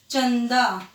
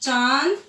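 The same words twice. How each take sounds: First: चंदा with a short a and a clear n before d; anusvara demo. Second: चांद with a long nasalised aa, slowly; nasal vowel demo. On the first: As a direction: close the n firmly in चंदा. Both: Shown as a demonstration. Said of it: "इनको बोलने में फर्क दिख रहा है".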